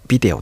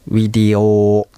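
First: The word begins with a B sound. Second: The word begins with a W sound. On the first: This is the usual Japanese way of saying it. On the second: This is how it is said in Thai.

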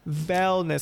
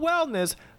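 First: The word begins with a V sound. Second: The word begins with a W sound. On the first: It is a pun on a cheese brand. The speaker calls it right. "as in Velveeta" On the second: It is the ordinary word for health. The speaker calls it wrong. "not wellness"

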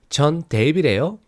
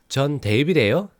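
Both takes have the same delivery.

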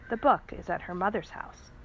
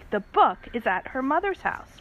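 First: It is said at normal, quiet volume. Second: It is said loudly.

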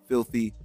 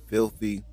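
The two takes are said the same way.

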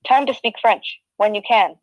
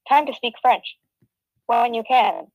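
First: It is read in the speaker's normal voice. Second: It is read in an imitated computer-assistant voice.

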